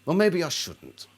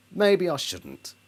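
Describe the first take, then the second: First: Said in the usual way. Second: "Maybe I shouldn't" said again slowly and deliberately; slow repeat. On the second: Shown as a demonstration. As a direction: let "Maybe" sink in slowly.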